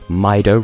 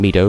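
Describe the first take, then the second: First: The name is said with an English-style first vowel. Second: The name is said with a Japanese-style first vowel. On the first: The speaker did not know the name was Japanese. The speaker calls it wrong. "I mispronounced ... as Mido" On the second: The name follows its Japanese origin. The speaker calls it right. "rather than Mido because as a child I didn't know that Japanese was a thing"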